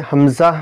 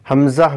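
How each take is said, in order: Both takes have the same delivery.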